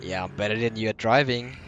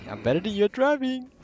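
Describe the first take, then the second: First: Said in the usual way. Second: Taunting, higher and louder; sing-song brag, higher pitch; mocking high taunt. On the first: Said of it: "repeat in taunting voice". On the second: Mocking repeat.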